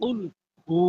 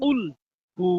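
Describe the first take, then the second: The two takes are said the same way.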